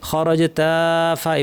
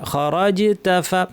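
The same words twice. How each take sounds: First: The vowel of 'ta' is drawn out long. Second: The vowel of 'ta' is kept short. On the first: The speaker calls it wrong. "এইভাবে না" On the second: The speaker calls it right. "তাতে টান নাই"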